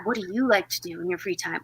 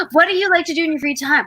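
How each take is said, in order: First: Low, soft repeat. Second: Quick, higher quoted question; quoted interviewer line. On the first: Quoting the parody's answerer, low and quiet. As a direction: question said lower and softer. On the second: Quoting the parody video's interviewer, quick and bright. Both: Retold or imitated. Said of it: "she'd be like".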